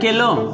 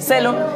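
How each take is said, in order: First: The word begins with a k sound. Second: The word begins with an s sound. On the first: The speaker calls it wrong. "सेलो या केलो?" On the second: The speaker calls it right. "उसको क्या पढ़ेंगे? सेलो।"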